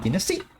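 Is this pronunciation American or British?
British. It is said the British way. "like British English should be dynasty"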